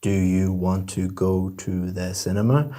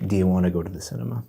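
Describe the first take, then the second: First: Each word is pronounced separately. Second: The words are run together smoothly.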